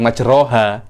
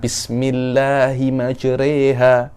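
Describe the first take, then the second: First: The vowel after r is a full open a. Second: The vowel after r is tilted toward e. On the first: The speaker calls it wrong. "Bukan majroha" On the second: The speaker calls it right. "re itu imalah"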